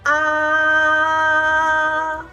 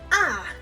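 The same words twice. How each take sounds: First: The pitch stays high, flat and long. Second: The pitch falls quickly and is short. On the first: "go up high. Keep flat and long" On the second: "tones go down and short"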